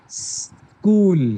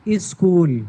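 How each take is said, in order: First: The word starts directly with the s sound. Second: An extra 'i' vowel comes before the s. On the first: The speaker calls it right. "Direct सा से शुरू करना है।" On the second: The speaker calls it wrong. "उनको सा से नहीं बोलते हैं बल्कि ई से बोलते हैं। कैसे?"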